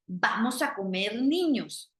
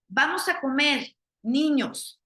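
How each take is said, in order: First: "Vamos a comer niños" run together in one breath; "comer" flows straight into "niños" with no pause; no comma pause. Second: Inviting call with a pause before niños; "Vamos a comer, niños" with a clear pause after "comer", calling the kids in; comma pause. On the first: Teacher showing the reading with no comma, all one phrase. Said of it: "yo estoy diciendo que vamos a cocinar, niños". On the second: Teacher showing students the comma, pause before niños. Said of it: "los estoy invitando a que vengan a comer". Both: Shown as a demonstration.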